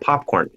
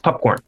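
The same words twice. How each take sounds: First: The first syllable has an open 'ah' vowel. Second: The first syllable has a short 'uh' vowel. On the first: "And it's also not popcorn" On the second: "A small dog eating corn"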